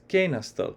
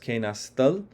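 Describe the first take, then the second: First: The stress falls on the first syllable. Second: The stress falls on the last syllable. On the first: The action is viewed as complete. "the perfective side is kenastal" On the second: The action is ongoing or habitual. "Kenastal is on the imperfective side"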